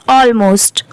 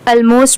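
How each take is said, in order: First: Almost with a long open "awl" start, "AWL-most"; correct pronunciation. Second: Almost with a short weak first vowel, "ul-most"; common mispronunciation. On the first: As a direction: say "almost" beginning like "all". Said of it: "इसकी correct pronunciation है". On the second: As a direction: say "almost" the mistaken way, starting "ul". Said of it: "but वो wrong है". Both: Shown as a demonstration.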